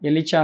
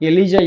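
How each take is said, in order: First: The middle consonant is a voiceless 'ch' sound. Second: The middle consonant is a voiced 'j' sound. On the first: The speaker calls it wrong. "ಎಲಿಚಾ ಅಲ್ಲ" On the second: The speaker calls it right. "ಎಲಿಜಾ ಇಂಪೆ ಅಂತೇಳಿ"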